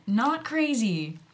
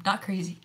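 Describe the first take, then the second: First: "Not crazy" slow, with "Not" pushed up and hit hard; stress on not. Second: Said in the usual way. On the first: Shown as a demonstration. Correcting her own word choice, stressing "Not". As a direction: lean on "Not" to correct herself. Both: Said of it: "Damn it".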